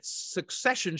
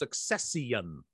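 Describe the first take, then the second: First: The word is said with its usual syllables. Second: The word is drawn out with an extra syllable. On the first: "it implies that succession" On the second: "should be pronounced succession"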